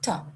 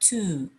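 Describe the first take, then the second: First: The vowel is reduced and weak. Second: The vowel is full and clear. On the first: "Before consonants, to is generally pronounced t" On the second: "Before vowels, to is generally pronounced to, like the word to"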